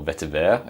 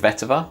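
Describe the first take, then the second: First: It is said with a French accent. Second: It is said with an English accent.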